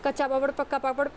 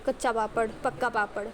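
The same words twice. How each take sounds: First: The phrase is spoken quickly and hurriedly. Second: The phrase is spoken slowly and carefully. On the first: The words get mixed up into a slip of the tongue. The speaker calls it wrong. "मैं ये speed में बोलने लगूँ" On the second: Every word comes out correctly. The speaker calls it right. "वही आप धीरे धीरे बोलो।"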